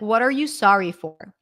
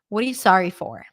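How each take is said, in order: First: It is slow, with 'what are you' fully pronounced. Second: It is fast, with 'what are you' reduced. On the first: "If you want to slow down, you can say something like" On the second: "when it's reduced, ... it actually sounds like this"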